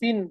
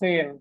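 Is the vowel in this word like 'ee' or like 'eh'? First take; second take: ee; eh. First: The vowel sounds like a long 'ee'. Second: The vowel sounds like a long 'eh'. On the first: The speaker calls it wrong. "এখানে সিন বলতেছে না" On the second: The speaker calls it right. "সেন বলতেছে"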